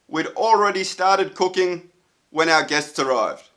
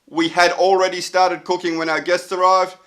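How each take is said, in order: First: The verb 'had' is contracted to 'd. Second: The verb 'had' is said in full. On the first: It sounds natural in spoken English. The speaker calls it right. "we should shorten everything" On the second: It sounds stiff and robotic in speech. The speaker calls it wrong. "sounds a bit like uh, Robocop"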